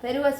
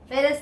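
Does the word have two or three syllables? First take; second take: three; two. First: The word is said with three syllables. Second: The word is said with two syllables. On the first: The speaker calls it right. "फेरुअस होता है" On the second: The speaker calls it wrong. "फेरस नहीं होता"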